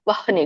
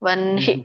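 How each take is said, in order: First: The h comes first, then the n. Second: The n comes first, then the h. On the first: "ವಹ್ನಿ ವಹ್ನಿ ಗಂಟ್ಲಲ್ಲಿ ಆಗುತ್ತೆ ನೋಡಿ" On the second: "ವನ್ಹಿ ವನ್ಹಿ ವನ್ಹಿ ಎದೆಯಲ್ಲಿ ಬರುತ್ತೆ"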